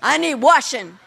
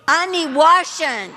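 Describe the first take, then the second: First: It is said plainly, without extra force. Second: It is said forcefully, with strong conviction.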